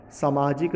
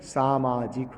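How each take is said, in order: First: सामाजिक wrongly opened with a short "sa"; short first vowel. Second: सामाजिक slow and lower, with long "saa"; long first vowel. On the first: Teacher rejecting the wrong form, short first vowel. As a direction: say "samaajik" for सामाजिक. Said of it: "सामाजिक नहीं होता". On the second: Teacher giving the correct form, long first vowel. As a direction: stretch the first syllable of सामाजिक. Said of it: "क्या होता है". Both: Shown as a demonstration.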